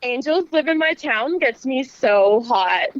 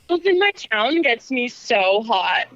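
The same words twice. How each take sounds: First: Slow, breathy sexy promo voice; sultry narrator. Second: Sultry narrator. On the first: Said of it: "Just do one more take for him". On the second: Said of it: "in a sexy voice". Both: Acted.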